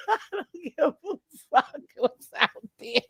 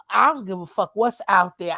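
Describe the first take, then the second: First: Repeats "I don't give a fuck what's out there" through a laugh; cracking up mid-line. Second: Said in the usual way. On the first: Retold or imitated. Telling the family she won't go out, laughing.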